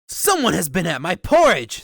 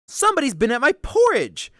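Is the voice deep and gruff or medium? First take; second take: deep gruff; medium. First: It is said in a deep, rough, gruff voice. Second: It is said in a medium, ordinary voice.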